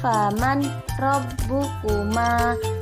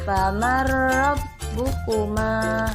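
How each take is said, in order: First: The n sound is pronounced clearly before r. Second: The n merges into a doubled r sound. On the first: The speaker calls it wrong. "Jangan dibaca" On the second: The speaker calls it right. "seolah-olah huruf ro-nya itu ber bertasydid"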